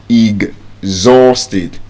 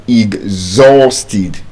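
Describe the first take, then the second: The two takes are said the same way.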